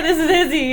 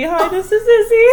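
First: Said in the usual way. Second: Higher cheery hello through laughter; laughing intro. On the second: Shown as a demonstration. Friend finally introduces herself on the podcast, laughing. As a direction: finally get your name in, laughing. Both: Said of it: "I didn't even get to say".

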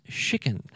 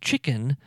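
First: "chicken" said the Cajun way, as Justin Wilson did, lightly; a hint of Cajun accent on "chicken"; Justin Wilson pronunciation. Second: Said in the usual way. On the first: Shown as a demonstration. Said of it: "he often pronounced as chicken". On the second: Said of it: "a word that he often pronounced as chicken".

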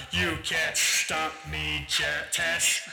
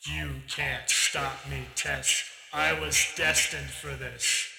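First: Slow, gloating villain; villain taunt. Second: Slow, gloating villain retake; villain taunt. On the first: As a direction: drawl the threat like a smug sorcerer. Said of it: "and he says". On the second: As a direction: draw out the threat, sure of his destiny. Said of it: "he says". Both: Acted.

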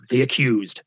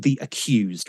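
First: Mock dramatic show title; big production ident. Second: Said in the usual way. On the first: Radio host imitating the feature's big production, mock dramatic announcer. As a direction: announce it like an ominous jingle, after a gasp. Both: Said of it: "Production was big".

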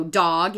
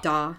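First: Said in the usual way. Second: "da", dog with no g; final consonant dropped. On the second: Shown as a demonstration. Showing how toddlers say dog, open "da". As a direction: cut "da" off at the vowel. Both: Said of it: "final consonant deletion".

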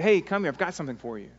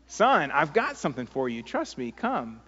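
First: Quick, lightly eager invitation; joyous coaxing. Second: Understated fatherly impatience; insist, a touch irritated; mildly irritated. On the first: Father calling his son over from his toys, joyous coaxing. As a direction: coax with a happy offer. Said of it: "kind of a joyous desire to bless". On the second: Father whose son is not listening, mildly irritated. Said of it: "I'm getting kind of irritated". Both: Acted.

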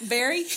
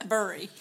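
First: "Berry" with an open "eh" vowel, rising. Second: "Bury" with a schwa-like "uh" vowel. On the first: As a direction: say "Berry" with a clear "eh" like the fruit. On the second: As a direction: say "Bury" with an "er" sound, not "eh". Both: Shown as a demonstration. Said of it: "What do you say?".

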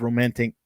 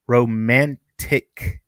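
First: Said in the usual way. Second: Romantic drawn out slowly, syllable by syllable; slow, over-careful "romantic"; careful repeat. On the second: Real, not acted. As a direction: stretch "romantic" into separate, deliberate pieces. Repeats the stumbled word carefully.

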